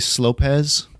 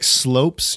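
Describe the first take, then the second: First: The word ends with an extra ez syllable. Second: The word is one syllable ending in s. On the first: The speaker calls it wrong. "you wouldn't say Slopes" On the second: The speaker calls it right. "I always say like Slopes"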